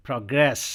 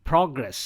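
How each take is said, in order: First: "progress" as pruh-GRESS, second syllable punched; light start, hit grace in "progress"; stress on second syllable. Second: "progress" with the first syllable punched, PRO-gress; stress on first syllable. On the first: Teacher drilling "progress" as a verb, stress on grace. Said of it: "same words को अब यहाँ पे हम verb के रूप में". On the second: Teacher drilling "progress" as a noun, stress on PRO. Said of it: "I'll pronounce these four words as nouns". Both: Shown as a demonstration.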